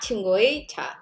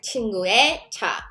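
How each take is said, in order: First: The particle is said with the vowel 'ui'. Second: The particle is said with the vowel 'e'. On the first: The speaker calls it wrong. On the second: The speaker calls it right. "then you pronounce it 에, like"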